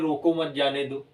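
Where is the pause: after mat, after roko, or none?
none. It is said without any pause. The meaning is unclear. The speaker calls it wrong. "अगर यही न लगा होता तो आप कहते"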